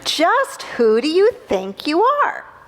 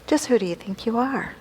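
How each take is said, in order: First: It sounds scornful and challenging. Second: It sounds warm and curious. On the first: The listener is being put in their place. "that question with that tone of voice" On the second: The listener is being encouraged to bloom. "Now take it in this way"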